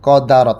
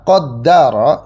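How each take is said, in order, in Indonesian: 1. Bunyi d pendek dan tunggal. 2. Bunyi d ditahan dan digandakan. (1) "qadara tanpa tasydid" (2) "itu bacaan mayoritas imam"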